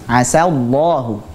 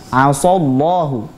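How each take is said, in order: First: The s sound is light and thin. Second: The s sound is heavy and thick. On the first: It expresses hope that God will grant something. The speaker calls it right. "jadi sa-nya tipis" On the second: It changes the meaning to God disobeying. The speaker calls it wrong. "menebalkan sin tersebut jadi huruf shad"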